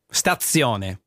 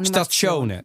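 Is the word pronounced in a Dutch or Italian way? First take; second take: Italian; Dutch. First: It is said with Italian pronunciation. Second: It is said with Dutch pronunciation. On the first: The speaker calls it right. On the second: The speaker calls it wrong.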